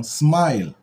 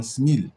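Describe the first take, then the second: First: "smile" pronounced "smyle", vowel like "eye"; smile with silent E. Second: "smile" pronounced "smil", with an i vowel; smile without silent E. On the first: Teacher adding the last letter back, "smile" as "smyle". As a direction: give smile its long I, silent final e. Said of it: "Mais si on ajoute". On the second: Teacher showing what removing the last letter gives, "smile" as "smil". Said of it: "Si on enlève I". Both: Shown as a demonstration.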